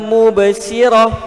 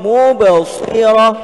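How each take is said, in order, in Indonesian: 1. Bunyi s itu ringan dan biasa. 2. Bunyi s itu tebal dan bersifat emfatik. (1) "bukan mubsirah, bukan sirah" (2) "huruf sad"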